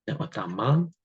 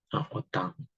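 First: «отаман» with the wrong syllable stressed, rising. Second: «отаман» with the stress on the first letter А; correct stress. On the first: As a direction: demonstrate the mistaken stress in «отаман». (неправильний наголос у слові «отаман») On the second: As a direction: show the right stress in «отаман», on the А. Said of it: "на першу букву А". (правильний наголос: «отаман» з наголосом на А) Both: Shown as a demonstration.

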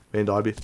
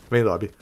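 No difference in how they are said.

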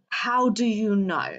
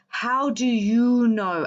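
First: Said in the usual way. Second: "How do you know?" drawn out slowly, every word weighted; slow emphatic repeat. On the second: Real, not acted. Challenging online critics, slow weighted "How do you know?".

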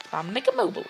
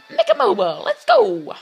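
First: Said in the usual way. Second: Very high, loud squealed cheer; over-the-top excited yell; hyped shout. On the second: Pretend. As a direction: shout the name like a high-pitched hype man. Repeats maker's name as cheer.

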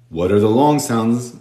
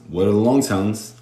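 The two takes are said the same way.

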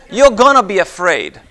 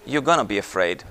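First: "gonna be afraid" raised and driven home; emphatic warning. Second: Low, soft, sober warning; hushed repeat. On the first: Preacher warning those doing what they shouldn't, emphatic. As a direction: punch "gonna be afraid" high, then fall. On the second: Preacher repeating the warning to the congregation, hushed and low. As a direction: drop right down to let it sink in. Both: Real, not acted.

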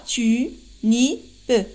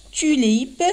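First: "Tu, ni, pe" as three detached syllables, final e voiced. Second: Said in the usual way. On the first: Shown as a demonstration. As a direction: spell out "Tu, ni, pe" syllable by syllable. (« Tu, ni, pe » détaché en trois syllabes) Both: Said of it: "trois syllabes".

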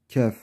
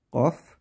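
First: Kef said with a front k and a light e. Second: Kaf said with a deep back-of-the-throat k and an open a. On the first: Teacher contrasting kef with kaf for students, light and front. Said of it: "Bu K harfiyle, kef". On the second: Teacher contrasting kaf with kef for students, deep and heavy. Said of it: "Kaf demeyelim buna". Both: Shown as a demonstration.

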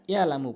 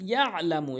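First: ইয়ালামু with a smooth open first a; ain dropped. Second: ইয়ালামু with mid-throat ain closing the first syllable; correct ain. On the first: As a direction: glide through ইয়ালামু with no throat sound. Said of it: "আইনের উচ্চারণ অধিকাংশ লোক করে না". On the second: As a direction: squeeze the throat after ইয়া in ইয়ালামু. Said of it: "হলকের মাঝখান থেকে". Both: Shown as a demonstration.

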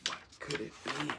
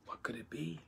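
First: Quiet wondering storyteller; hushed. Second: Unvoiced suspense whisper; breathless storyteller whisper. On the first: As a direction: keep it soft but voiced. Narrator repeats the question. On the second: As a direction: hush it like a secret. Narrator builds suspense. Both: A narrator's reading.

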